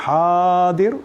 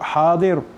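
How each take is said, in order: First: The word is stretched out longer. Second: The word is said short and plain.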